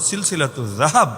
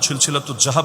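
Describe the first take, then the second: First: The title is pronounced with careful Arabic sounds. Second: The title is pronounced in a careless, non-Arabic way. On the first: The speaker calls it right. "উচ্চারণটাও শুদ্ধ করে করা যায়" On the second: The speaker calls it wrong. "আপনার মতো বা জাহাব না, সিলসিলাতু জাহাব না"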